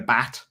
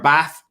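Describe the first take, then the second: First: It ends with a t sound. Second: It ends with a th sound. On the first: "You're going to get a bat" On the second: "if you want to go for a bath"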